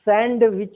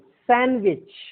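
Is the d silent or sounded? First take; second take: sounded; silent. First: The d sound is pronounced in the word. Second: The d sound is left out of the word. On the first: The speaker calls it wrong. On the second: The speaker calls it right.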